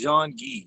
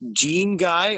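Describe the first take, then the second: First: The name is said the Canadian way. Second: The name is said the non-Canadian way.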